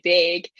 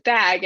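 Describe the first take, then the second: First: "bag" with a long A, like "beg"; Yooper pronunciation. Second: Said in the usual way. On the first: Shown as a demonstration. Owning up to a boot camp habit, Yooper "bag". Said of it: "I always say bag". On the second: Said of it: "instead of bag".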